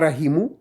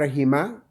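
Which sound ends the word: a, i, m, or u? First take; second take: u; a. First: The word ends with an added u vowel. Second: The word ends with an added a vowel. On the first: "On ne dit pas rahimu" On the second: "on ne dit pas rahima"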